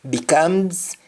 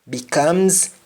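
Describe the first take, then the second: The two takes are said the same way.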